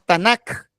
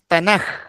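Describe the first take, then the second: First: The word ends with a hard k sound. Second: The word ends with a throaty h sound. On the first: The speaker calls it wrong. "no decimos" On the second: The speaker calls it right. "se pronuncia como J"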